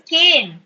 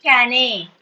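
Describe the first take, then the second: First: Said in the usual way. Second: "cane" misread as "ka-nay"; wrong two-syllable pronunciation. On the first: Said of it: "E is silent". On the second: Shown as a demonstration. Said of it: "You're not pronouncing it".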